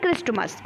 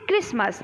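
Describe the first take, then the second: First: The t sound is pronounced. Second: The t sound is left out. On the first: This is how the word is written. "क्या लिखते हैं" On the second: This is how the word is spoken. "क्या बोलते हैं"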